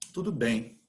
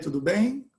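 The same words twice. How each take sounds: First: The voice falls at the end. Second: The voice rises at the end.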